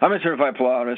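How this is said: It is said in a cold, uncaring tone. The speaker calls it wrong. "It's a lot different than with a tone of compassion"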